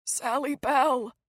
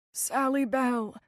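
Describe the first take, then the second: First: Choking. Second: Weak, slow. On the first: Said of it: "a strange choking sound". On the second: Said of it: "His words came slowly". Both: A narrator's reading.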